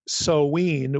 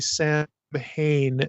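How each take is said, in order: First: The first vowel sounds like o in glow. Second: It is said as Sam-hain, with an h. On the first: The speaker calls it right. "with the O W like glow" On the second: The speaker calls it wrong. "that is not the way we pronounce this name"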